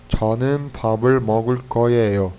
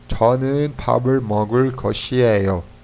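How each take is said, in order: First: The ending is said in a shortened, contracted form. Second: The ending is said in its full, longer form. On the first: "E quando só ko, aí é ieyo" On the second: "quando a gente usa o shiot, got, né, a gente é, adiciona ieyo"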